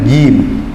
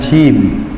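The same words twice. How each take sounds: First: The consonant is clean, without any hiss. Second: The consonant has a hissing, affricated sound. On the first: The speaker calls it right. "Tidak boleh ada suara cek cek atau desisnya. Ngeten" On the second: The speaker calls it wrong. "bukan jim"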